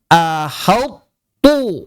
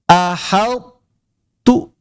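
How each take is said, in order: First: The whole word sounds thick, ending included. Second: Only the middle sound is thick, the ending thin. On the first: The speaker calls it wrong. "itu jadi tebal semua, jadi to" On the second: The speaker calls it right. "masih tersisa sifat itbaqnya"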